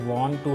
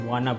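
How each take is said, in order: First: Both words are said fully and separately. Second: The words blend into one reduced word. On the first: "ये जो वॉन्ट टू है ना" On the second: "इसको वाना बोल देते हैं"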